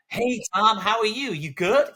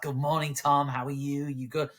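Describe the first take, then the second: First: Very high, loud, over-friendly boss; exaggerated fake-cheery head teacher; schmaltzy greeting. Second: Schmaltzy American greeting, slightly raised pitch; smarmy mock-American boss; American accent. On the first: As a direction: gush it in a hammed-up high voice. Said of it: "really schmaltzy". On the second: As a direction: put on a gushing American accent. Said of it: "I did an American accent then".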